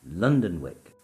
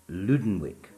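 First: The first part sounds like 'London'. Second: The first part sounds like 'Luden'. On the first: The speaker calls it right. "the correct pronunciation is Londonwick" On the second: The speaker calls it wrong. "I keep referring to early Saxon London as Ludenwick"

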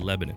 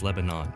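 First: It is said the local Ohio city way. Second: It is said the usual way for the country. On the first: It names the city in Ohio. "In Ohio, there's a city called Lebanon, and we say Lebanon" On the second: It names the country. "but the country is Lebanon"

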